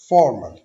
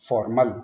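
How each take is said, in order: First: The stress is on the first syllable. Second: The stress is on the second syllable. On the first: The speaker calls it right. "जो हमारा first saleable है उस पे हमने stress देना है" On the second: The speaker calls it wrong. "अगर मैं इसको ऐसे प्रोनाउंस करूंगा अभी फॉर्मल, तो वो सुनने में भी अजीब लगता है"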